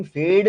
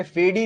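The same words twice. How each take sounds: First: फेड ending on a D sound; silent final E. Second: फेडी ending in a sounded "ee"; wrong pronunciation. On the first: Teacher showing students the spoken word fade, silent final E. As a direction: say फेड with no "ee" after the D. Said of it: "वो silent होता है". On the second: Teacher showing students how fade is not said, wrong pronunciation. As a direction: say फेडी with the final E voiced. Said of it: "फेडी नहीं बोलते". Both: Shown as a demonstration.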